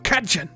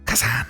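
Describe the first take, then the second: First: The middle consonant is a j sound. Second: The middle consonant is a plain z sound. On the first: The speaker calls it right. "Z H is like D J. ... That's closer" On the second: The speaker calls it wrong. "I've definitely not been saying it right"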